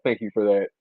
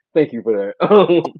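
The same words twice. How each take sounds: First: Said in the usual way. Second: Slower, higher, louder repeat; emphatic thanks. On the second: Real, not acted. Host thanking the comedian again, slower and louder. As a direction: lean into the thanks.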